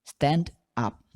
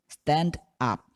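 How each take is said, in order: Both takes have the same delivery.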